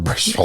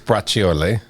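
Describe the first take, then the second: First: The word is shortened, with the final vowels dropped. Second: The word is pronounced with full Italian vowels.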